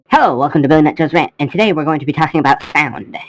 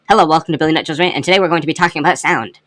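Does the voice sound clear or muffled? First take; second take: muffled; clear. First: The voice sounds muffled. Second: The voice sounds clear.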